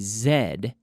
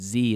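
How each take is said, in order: First: The letter is said as zed. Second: The letter is said as zee. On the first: This is the British form. "the Z is British" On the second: This is the American form. "the pronunciation Z is American"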